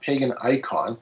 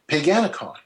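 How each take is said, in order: First: It is said as two separate words. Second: It is said as one blended word. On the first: The speaker calls it wrong. "it's not Pagan Icon" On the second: The speaker calls it right. "it's Paganicon"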